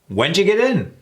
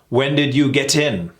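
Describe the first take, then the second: First: The first words blend into one quick 'whenja'. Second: Each word is said fully and separately. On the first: The speaker calls it right. "Whenja. ... It is easier" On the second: The speaker calls it wrong. "That sounds weird, doesn't it?"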